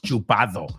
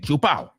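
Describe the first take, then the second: First: The d sound before the final o is pronounced. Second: The d sound before the final o is dropped. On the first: "I know it's chupado" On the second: "but I know also that people say chupao"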